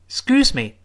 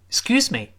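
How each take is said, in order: The two takes are said the same way.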